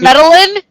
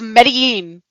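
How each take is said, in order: First: The double L sounds like an English L. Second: The double L sounds like a Y. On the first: The speaker calls it wrong. "instead of" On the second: The speaker calls it right. "it's Medellin"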